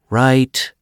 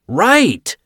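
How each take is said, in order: First: The word is said somewhat louder. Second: The word is screamed very loudly. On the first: "Joe said a bit louder" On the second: "Joe screamed"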